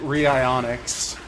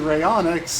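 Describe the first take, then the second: First: The name is said as ree-ionics. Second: The name is said as ray-onyx. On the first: The speaker calls it wrong. "she pronounces it" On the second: The speaker calls it right. "it was supposed to be"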